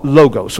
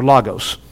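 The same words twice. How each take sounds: First: LOGOS with long O, "LOH-gohs"; long first O. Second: LOGOS as "LAH-gohs"; short open O. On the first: Teacher showing a Greek word, "logos" as LOH-gohs. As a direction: say "logos" with a first syllable like "low". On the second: Preacher giving his usual pronunciation, "logos" as LAH-gohs. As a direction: say "logos" with an open AH in the first syllable. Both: Shown as a demonstration. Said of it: "that's how we pronounce it".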